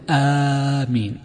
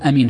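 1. الحرف الأول ممدود ومُطوَّل. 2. الحرف الأول قصير، من غير مد. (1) "وأما بالمد فيقول آمين" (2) "فالقصر هو أن يقول أمين أمين"

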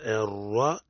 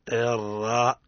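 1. يُنطق صوت الراء بشفتين مستديرتين. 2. يُنطق صوت الراء بشفتين مفتوحتين. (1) "نضم الشفتين في المفتوح، نقول الراء، هذا خطأ" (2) "الصواب الراء افتحها لأنها فتحة"

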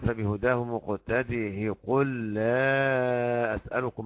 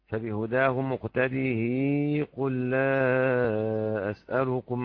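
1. الهاء الأخيرة عليها كسرة قصيرة. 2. الهاء الأخيرة عليها كسرة طويلة. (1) "يكسر الهاء ابن عامر" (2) "له الإشباع"

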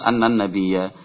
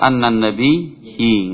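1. Kata itu diakhiri dengan vokal a. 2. Kata itu diakhiri dengan vokal i. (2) "Enggak boleh"

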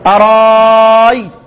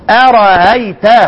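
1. الهمزة الوسطى تصير حرف مد طويل. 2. الهمزة الوسطى تُلين، ولا تُنطق كاملة. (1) "بتحط الف مكان الهمزة" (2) "بالراحة كده بدون تكلف"

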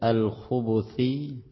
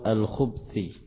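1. Huruf b diikuti vokal u. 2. Huruf b tidak diikuti vokal. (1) "di dhammah" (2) "Kalau disukun al-khubthi"

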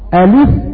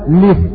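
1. تبدأ الكلمة بهمزة ثم حركة. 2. تبدأ الكلمة مباشرة بصوت اللام. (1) "إما نبدأ بالهمزة" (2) "أو نبدأ باللام"

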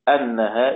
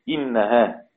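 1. تبدأ الكلمة بالصائت 'a'. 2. تبدأ الكلمة بالصائت 'i'. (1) "الباقون بالفتح" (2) "ابن كثير وأبو عمرو ويعقوب وخلف العاشر بالكسر"

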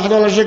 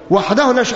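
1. تُقال بشكل آلي، مثل العد بالحفظ. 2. تُقال بتمهل وبإحساس صادق. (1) "بتقول لك كلام روتيني وتمسك العدد كده العداد" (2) "كلام تكون تعني ما تقول"

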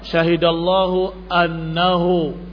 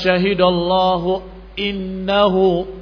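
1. Kata setelah syahidallahu dimulai dengan vokal 'a'. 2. Kata setelah syahidallahu dimulai dengan vokal 'i'. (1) "difathahkan hamzahnya" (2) "Kalau dibaca seperti bacaan Ibnu Abbas"

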